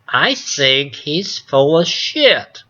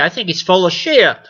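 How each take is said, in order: First: It is said in a sweeter, nicer tone. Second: It is said in a plain, blunt tone.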